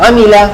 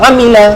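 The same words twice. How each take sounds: The two takes are said the same way.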